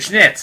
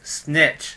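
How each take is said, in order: First: The word begins with an 'sh' sound. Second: The word begins with a plain 's' sound. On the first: The speaker calls it wrong. "you're saying schnitz" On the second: The speaker calls it right. "It's snitch"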